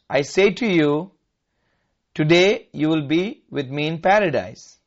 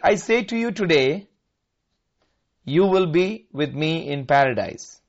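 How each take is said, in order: First: The pause comes before the word today. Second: The pause comes after the word today.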